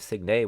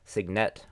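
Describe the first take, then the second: First: It is said with a French-style pronunciation. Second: It is said with an American-style pronunciation. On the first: "I believe Signet would be French" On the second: "my very American way of saying it"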